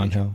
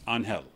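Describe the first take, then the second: First: The name is pronounced the English way. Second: The name is pronounced the Spanish way. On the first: This is how others commonly call the player. "But I think they call him Angel" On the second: This is the pronunciation from the player's own heritage.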